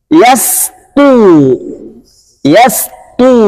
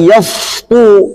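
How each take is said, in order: First: "Yastu" with a light thin s. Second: "yastu" with heavy emphatic s like shad; wrong thick yastu. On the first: Teacher models the correct thin sin. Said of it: "Jadi tipis". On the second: Teacher demonstrates the forbidden reading. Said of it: "Jangan sampai yastu". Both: Shown as a demonstration.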